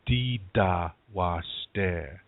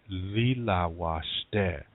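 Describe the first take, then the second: First: The first word is said with d sounds. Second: The first word is said with l sounds. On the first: This is the Dakota dialect form. "In Dakota, you'd say dida washte" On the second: This is the Lakota dialect form. "In Lakota, you say lila washte"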